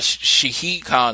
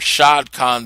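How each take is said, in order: First: The first name is said with two syllables. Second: The first name is said with one syllable. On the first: The speaker calls it right. "it's actually Shahid" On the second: The speaker calls it wrong. "some people call him"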